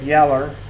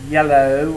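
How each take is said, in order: First: The word ends with an 'er' sound. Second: The word ends with an 'oh' vowel. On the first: "depending on where you're from" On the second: "depending on where you're from"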